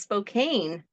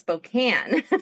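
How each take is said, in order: First: The name is pronounced as its spelling suggests. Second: The name is pronounced the way locals say it. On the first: The speaker is not from the area. The speaker calls it wrong. "if they've never been to Spokane, Washington, they might look at the name and say" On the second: The speaker is from the area. The speaker calls it right. "And no, it's Spokane"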